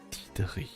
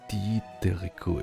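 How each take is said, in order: First: The name is said with strong German sounds. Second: The name is said with Japanese sounds. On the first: "I will pronounce it extremely German" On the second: "it's it's called in Japanese"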